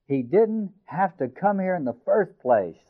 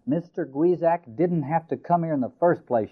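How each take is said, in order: First: "He didn't have to come here in the first place" with every word stressed, high and slow; emphasizing each word. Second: Said in the usual way. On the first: Acted. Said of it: "she repeated, emphasizing each word". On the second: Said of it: "she said".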